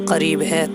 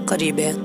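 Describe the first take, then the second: Both takes have the same delivery.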